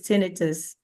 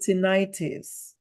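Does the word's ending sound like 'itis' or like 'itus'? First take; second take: itus; itis. First: The ending does not sound like 'itis'. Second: The ending sounds like 'itis'. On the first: The speaker calls it right. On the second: The speaker calls it wrong.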